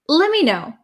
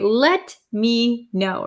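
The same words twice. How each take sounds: First: The T drops, so "let me" sounds like "lemme". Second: The T in "let me" is clearly pronounced. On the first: "We often change this to let me know" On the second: "we don't say let me know"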